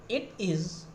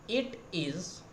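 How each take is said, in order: Both takes have the same delivery.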